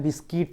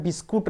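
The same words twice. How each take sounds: First: बिस्किट with "kit" at the end; correct silent u. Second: बिस्कुट with "kut" as second syllable; wrong u sounded. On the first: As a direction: say बिस्किट lower and softer, i not u. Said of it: "बिस्किट पढ़ते हैं". (बिस्किट में यू silent) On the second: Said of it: "बिस्कुट नहीं पढ़ते हैं". (बिस्कुट में गलत "उ" की आवाज़) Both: Shown as a demonstration.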